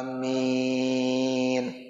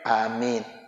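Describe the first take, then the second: First: The vowel is drawn out long. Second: The vowel is kept short. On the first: This is how the congregation answers in prayer. "Biasanya panjang ya, panjang" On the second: This is how it is said after a personal supplication. "Ya yang pendek"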